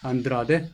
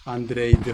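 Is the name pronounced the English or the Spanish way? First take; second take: Spanish; English. First: The name is pronounced the Spanish way. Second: The name is pronounced the English way. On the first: The speaker calls it right. "사실은 이제 스페인어니까 안드라데" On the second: The speaker calls it wrong. "영어 발음인데요"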